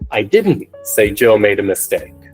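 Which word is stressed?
didn't. The word didn't carries the strongest stress. I said something else. "if we place the emphasis on another word, for example, didn't"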